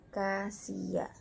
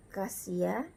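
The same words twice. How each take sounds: First: "Cassia" slowly, ka-si-a; single S demo. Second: Said in the usual way. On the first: Shown as a demonstration. Teacher modelling the reading, "Cassia" in slow syllables. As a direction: draw out "Cassia" with one s. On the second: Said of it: "dibaca Cassia".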